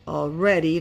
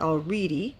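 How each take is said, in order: First: The second vowel is a short eh sound. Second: The second vowel is a long ee sound. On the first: The speaker calls it right. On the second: The speaker calls it wrong. "not already"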